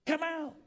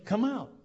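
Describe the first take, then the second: First: Much higher, less loud repeated call; Jesus. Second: Loud, high summoning call; Jesus. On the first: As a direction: send the summons out high-pitched. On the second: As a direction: call out a firm command. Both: Acted. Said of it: "the voice of Jesus saying".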